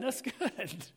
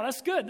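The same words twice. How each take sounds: First: A soft laugh breaking into the words. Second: Said in the usual way. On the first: Real, not acted. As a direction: chuckle through it, pleased with the room. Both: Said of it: "they're laughing now".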